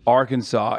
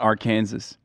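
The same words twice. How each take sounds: First: It is pronounced unlike its spelling. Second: It is pronounced just as it is spelled. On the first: The speaker calls it right. "It's not phonetic" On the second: The speaker calls it wrong. "not Arkansas"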